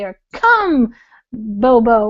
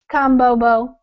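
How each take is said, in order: First: The pitch moves up and down. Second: The pitch stays flat throughout. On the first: "the inflections are the up and down" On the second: "So now it would just sound like"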